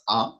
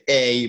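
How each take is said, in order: First: The letter is said with French pronunciation. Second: The letter is said with English pronunciation. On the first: "but this is a" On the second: "in English, you say a"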